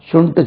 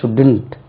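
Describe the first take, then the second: First: The d sound is dropped from the word. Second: The d sound is pronounced before the n. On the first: The speaker calls it wrong. "ஷுண்ட் சொல்லக்கூடாது" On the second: The speaker calls it right.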